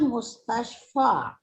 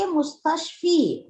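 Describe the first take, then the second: First: The word ends with an 'a' vowel. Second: The word ends with an 'i' vowel. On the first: The speaker calls it right. "So you read it as fil mustashfa" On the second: The speaker calls it wrong. "you don't say mustashfi"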